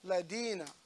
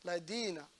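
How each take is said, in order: First: The middle consonant is a d sound. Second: The middle consonant is a d sound.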